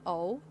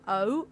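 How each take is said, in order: First: O open and effortless, American-style. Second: O rounded, with effort, Southern British. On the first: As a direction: let the O fall open, as Americans do. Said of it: "American vowels are very open". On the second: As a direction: shape O tightly as a British vowel. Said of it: "rounded and a lot more effort in O". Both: Shown as a demonstration.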